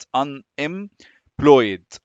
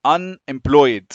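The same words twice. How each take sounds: First: Very slow "Unemployed", split into separate syllables. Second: "Unemployed" joined up, final syllable said as one "ployd"; silent E. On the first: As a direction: break "Unemployed" into un, em, ployed with pauses. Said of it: "لآخر syllable في ال". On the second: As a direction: run "Unemployed" together, louder, without sounding the last E. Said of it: "the E is not pronounced". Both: Shown as a demonstration.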